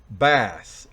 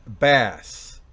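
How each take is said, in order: Both takes have the same delivery.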